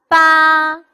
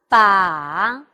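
First: The pitch stays high and level. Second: The pitch dips low and then rises.

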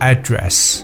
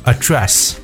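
First: The stress is on the first syllable. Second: The stress is on the second syllable. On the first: It is a noun meaning a location. "名词它的重音在前" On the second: It is a verb meaning to speak to or deal with. "动词呢可能会放在后面"

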